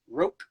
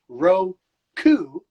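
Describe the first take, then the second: First: The final vowel is devoiced and nearly silent. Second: The final vowel is fully voiced.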